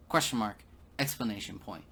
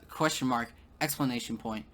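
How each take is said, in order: Both takes have the same delivery.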